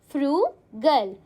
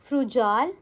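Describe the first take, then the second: First: The middle consonant is a hard g sound. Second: The middle consonant is a soft j sound. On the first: The speaker calls it right. "It is pronounced as frugal" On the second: The speaker calls it wrong. "Will you pronounce it as frujal? No, absolutely not"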